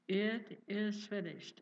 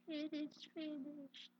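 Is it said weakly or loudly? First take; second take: loudly; weakly. First: It is said loudly and strongly. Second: It is said weakly and quietly.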